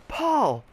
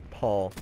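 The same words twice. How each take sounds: First: Sharp, high-pitched call of a name; imitating angry teacher. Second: Said in the usual way. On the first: Teacher singling out a kid in class, calling out sharply. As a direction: call out high and cross, falling away.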